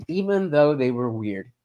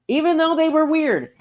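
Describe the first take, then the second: First: Said in the usual way. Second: High, insistent "even though they were weird"; emphatic repeat. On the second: Real, not acted. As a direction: push the point up high. Repeats the point in contrasting takes.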